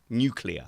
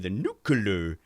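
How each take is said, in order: First: The word is said as 'new' plus 'clear'. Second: The word is said in the American way. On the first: The speaker calls it right. "new as in the word new, and then clear as in see through" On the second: The speaker calls it wrong. "I will instinctively do it the American way"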